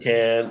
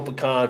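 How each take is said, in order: First: It uses the pronunciation common in the North. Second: It uses the pronunciation common in the South. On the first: "People in the north say pecan" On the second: "people in the south, they definitely go pecan"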